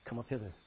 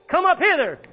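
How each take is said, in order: First: Softer, lower, hushed call. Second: Much higher, much louder ringing call; heavenly shout. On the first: Preacher quoting the rapture call, softer and lower. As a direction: say it hushed, holding the shout back. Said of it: "you might hear a shout saying". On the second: The heavenly voice calling believers up, a ringing shout. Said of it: "they heard a voice saying". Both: Pretend.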